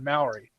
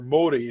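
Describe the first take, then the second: First: It is said in an English-style way. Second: It is said in the native way. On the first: The speaker calls it wrong. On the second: The speaker calls it right.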